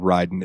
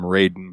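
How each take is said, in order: First: The first syllable does not sound like 'ray'. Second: The first syllable sounds like 'ray'. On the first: This is the name as used in this game. "in this game he's called Raiden" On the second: This is the name as used in another game. "they call him Raiden"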